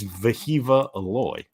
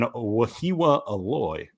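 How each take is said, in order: First: The first name is said with V sounds. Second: The first name is said with W sounds. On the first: The speaker calls it right. "throw the W's out, focus on the V sound" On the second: The speaker calls it wrong. "I said his name completely wrong"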